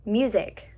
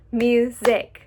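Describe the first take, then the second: First: Said in the usual way. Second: Music in two punched beats, mu-sic; louder, with music broken in half; split into syllables. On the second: Shown as a demonstration. Teacher cutting up music for students, syllable by syllable. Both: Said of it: "We can cut up the word".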